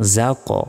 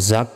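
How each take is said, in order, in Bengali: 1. শেষের q ধ্বনিটি ধাক্কা দিয়ে ঝাঁকুনি সহ ছেড়ে দেওয়া হয়। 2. শেষের q ধ্বনিটি ধাক্কা ছাড়া সমানভাবে বন্ধ করা হয়। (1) "ধাক্কা দিবেন যা ক" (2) "জাক না বলে"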